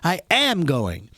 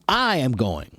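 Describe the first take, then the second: First: The stress is on the word am. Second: The stress is on the word I.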